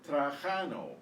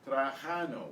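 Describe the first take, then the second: The two takes are said the same way.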